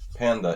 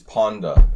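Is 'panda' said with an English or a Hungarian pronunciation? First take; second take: English; Hungarian. First: It is said with an English pronunciation. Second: It is said with a Hungarian pronunciation. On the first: "panda in English" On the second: "is panda in Hungarian"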